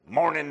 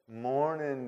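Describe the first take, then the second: First: It sounds grudging and unfriendly. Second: It sounds warm and affectionate. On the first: The speaker is still angry and does not mean it. The speaker calls it wrong. "No, not like that" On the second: The speaker sincerely means the kind greeting. The speaker calls it right.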